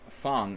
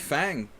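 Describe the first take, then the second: First: The name is said the Chinese way. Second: The name is said the English way. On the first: The speaker calls it right. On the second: The speaker calls it wrong.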